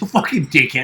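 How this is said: It is said in an angry, mad way.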